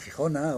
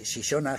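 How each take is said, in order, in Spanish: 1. Las consonantes son sonidos fuertes guturales tipo h. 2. Las consonantes son sonidos suaves tipo sh. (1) "se convirtió en J" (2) "el sonido shi"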